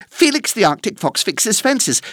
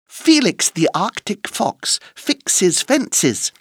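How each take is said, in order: First: It is said at a very fast pace. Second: It is said at a slow, careful pace.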